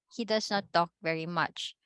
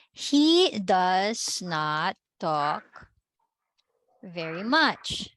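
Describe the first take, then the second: First: Said in the usual way. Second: Very slow, word by word; slow dictation. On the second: Shown as a demonstration. Teacher giving the class the English answer, slow dictation. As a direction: stretch each word out, pausing midway.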